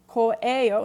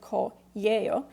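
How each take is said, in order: First: The ending is said without a y glide. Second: The ending is said with a y glide. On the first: "it's very common to pronounce it as ko'eo" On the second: "instead of ko'yeo"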